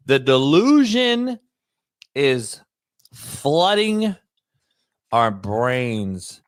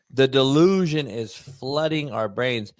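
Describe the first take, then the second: First: Slow, with a long pause between DELUSION, IS, FLOODING and OUR BRAINS; drawn-out emphasis. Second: Said in the usual way. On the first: Real, not acted. Host driving home a point to his co-host, slow and halting for effect. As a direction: stretch DELUSION and FLOODING, stopping after each chunk.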